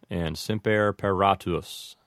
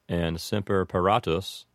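Both takes have the same delivery.

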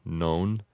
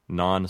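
First: The vowel in non is long. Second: The vowel in non is short. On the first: "you would make the O in non a long O, and it would say non" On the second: "with an Americanized pronunciation, we would just say non sequitur"

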